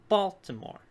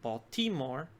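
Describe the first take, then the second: First: Baltimore stressed on the first syllable, BAL-timore. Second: Baltimore stressed on the middle syllable, bal-TI-more; shifted stress. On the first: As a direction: hit the BAL in Baltimore, louder. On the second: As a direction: put the accent on the TI in Baltimore. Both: Shown as a demonstration. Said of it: "when I switch the accent on the word".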